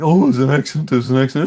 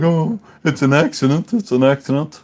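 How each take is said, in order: First: Mimicking the son. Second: Put-on whiny high child voice, louder; mock the son pleading it was an accident; mimicking the son. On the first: A dad mimicking his son's excuse a second time. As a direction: whine it like a protesting little boy. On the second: A dad mimicking his six-year-old son's excuse. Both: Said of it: "he was all like".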